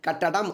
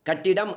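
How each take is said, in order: First: The middle vowel is an a sound. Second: The middle vowel is an i sound. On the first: This is the pure literary form. "தூய தமிழ் சொல்" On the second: This is the everyday spoken form. "பேச்சுவழக்கு சொல்"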